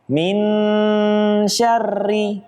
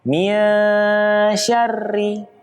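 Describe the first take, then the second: First: The n is pronounced fully and clearly. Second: The n is hidden and blurred into sh. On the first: The speaker calls it wrong. "kesalahan yang terjadi adalah tidak dengan membaca samar. Nunnya dibaca jelas" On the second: The speaker calls it right.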